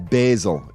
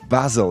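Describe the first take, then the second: First: Basil is said in an American English pronunciation. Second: Basil is said in a non-American pronunciation.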